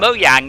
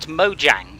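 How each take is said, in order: First: It uses the original, non-English pronunciation. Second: It uses an English-style pronunciation. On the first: The speaker calls it right. "the correct pronounce it is" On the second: The speaker calls it wrong.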